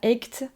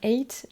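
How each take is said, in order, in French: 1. Le mot se prononce avec un son g dur. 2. Le mot se prononce sans son g. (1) "on dit pas eight" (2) "on dit bien eight"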